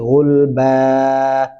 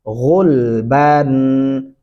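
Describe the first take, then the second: First: The word ends on a vowel without n. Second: The word ends with an n sound. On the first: The reader stops at this word. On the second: The reading continues without stopping.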